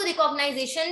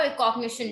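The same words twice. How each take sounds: First: "रिकॉग्नाइजेशन": the long American-style form, ni-ZAY-shun; recognization pronunciation. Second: "रिकॉग्निशन": the short form, re-cog-NI-shun; recognition pronunciation. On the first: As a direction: say "रिकॉग्नाइजेशन" as re-cog-ni-ZAY-shun, with the extra -ize- syllable. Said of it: "हम इसको रिकॉग्नाइजेशन भी बोलते हैं". ("रिकॉग्नाइजेशन" को रि-कॉग-नाइ-ज़े-शन बोलें) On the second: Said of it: "और रिकॉग्निशन भी". ("रिकॉग्निशन" को रि-कॉग-नि-शन बोलें) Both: Shown as a demonstration.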